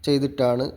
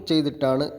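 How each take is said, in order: The two takes are said the same way.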